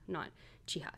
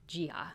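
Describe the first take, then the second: First: The name begins with a ch sound. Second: The name begins with a j sound. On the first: The speaker calls it wrong. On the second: The speaker calls it right. "it's closer to a J sound"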